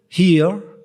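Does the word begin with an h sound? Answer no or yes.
yes. The word starts with an h sound.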